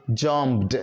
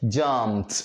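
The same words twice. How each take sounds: First: "jumped" ending in a voiced "d"; wrong voiced ending. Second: "jumped" ending in a crisp "t"; voiceless T ending. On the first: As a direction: finish "jumped" with an audible "duh". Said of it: "you don't say jumped". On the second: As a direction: finish "jumped" on a breathy "t", no voice. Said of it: "What you have to say is". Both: Shown as a demonstration.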